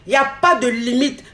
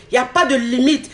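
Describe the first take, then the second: No difference in how they are said.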